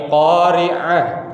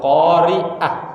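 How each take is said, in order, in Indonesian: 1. Konsonan tengahnya ain, bunyinya dari tenggorokan. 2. Konsonan tengahnya hamzah biasa. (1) "tapi qari'ah, beda" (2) "bukan qari'ah"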